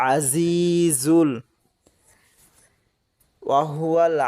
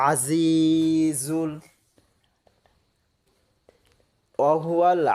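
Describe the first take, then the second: The two takes are said the same way.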